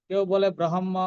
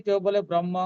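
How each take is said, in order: Both takes have the same delivery.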